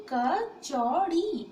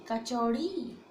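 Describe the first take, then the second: First: कचौड़ी drawn out very slowly and louder; slow emphatic model. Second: Said in the usual way. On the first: Shown as a demonstration. Teacher to students, modelling कचौड़ी slowly. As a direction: stretch every syllable of कचौड़ी, loud and clear. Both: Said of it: "क्या है ये?".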